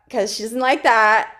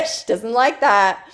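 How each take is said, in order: First: Said in the usual way. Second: Slow, laughing repeat. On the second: Real, not acted. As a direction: say it again through a laugh. Repeats remark while laughing.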